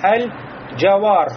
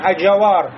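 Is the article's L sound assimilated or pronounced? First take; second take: pronounced; assimilated. First: The L is clearly pronounced before the J. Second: The L merges into the following J sound. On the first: The speaker calls it right. "а говорим да аль-джавар" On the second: The speaker calls it wrong. "не говорим аджавар"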